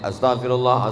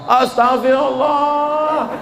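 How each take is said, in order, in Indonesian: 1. Diucapkan dengan singkat dan cepat. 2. Diucapkan dengan keras dan penuh tekanan. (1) "Ada orang istighfarnya pendek aja" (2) "Ada yang bersuara keras"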